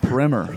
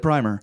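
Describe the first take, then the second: First: Primer is said unlike the paint product. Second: Primer is said like the paint product. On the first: The speaker calls it right. "it's not paint" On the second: The speaker calls it wrong. "Don't say primer"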